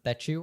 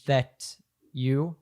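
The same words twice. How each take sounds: First: The T and Y merge into ch. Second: The T and Y stay separate sounds. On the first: "it turns into a ch sound" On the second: "So that you would become"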